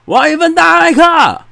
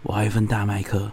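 First: It is shouted loudly. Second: It is said softly and quietly.

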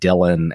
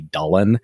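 First: The name is pronounced the anglicized English way. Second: The name is pronounced the Welsh way. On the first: "the family always pronounced it Dylan and not the Welsh way" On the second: "the Welsh way, which would apparently be Dullen"

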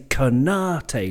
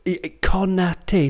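First: One syllable is strongly stressed. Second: All syllables carry equal weight. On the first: The speaker calls it wrong. "English people, they would say Konate, like boom, boom, boom" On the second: The speaker calls it right. "because he's French"

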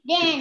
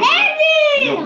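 First: The name is said at normal volume. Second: The name is shouted loudly.

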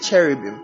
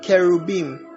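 First: The word is said with an English pronunciation. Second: The word is said with a Hebrew pronunciation.

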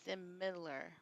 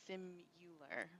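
First: The middle syllable has a short 'ih' sound. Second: The middle syllable sounds like 'you'. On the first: The speaker calls it right. "but it's similar, right?" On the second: The speaker calls it wrong. "I think I say simular, ... that is not correct"

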